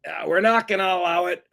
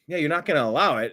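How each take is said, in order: First: Mock Trump voice. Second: Said in the usual way. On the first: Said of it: "He's like".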